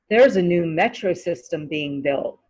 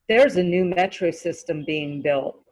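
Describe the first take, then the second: No difference in how they are said.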